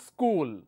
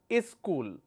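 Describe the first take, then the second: First: The word is said as one syllable. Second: An extra vowel syllable comes before the word. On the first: The speaker calls it right. "Only one" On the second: The speaker calls it wrong. "they add another syllable here"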